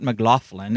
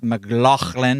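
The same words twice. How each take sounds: First: The name is said with a plain English pronunciation. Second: The name is said with a Scottish pronunciation. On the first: The speaker calls it wrong. "not McLaughlin" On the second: The speaker calls it right. "It's McLaughlin because he's a strong Scotch guy"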